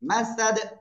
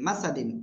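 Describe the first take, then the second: First: The word ends abruptly on a bare 'd'. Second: The word ends with a 'din' syllable. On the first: The reciter stops on this word. "অক্ফ করলে সাকিন।" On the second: The reciter carries on without stopping. "দাল দুই জের দিন"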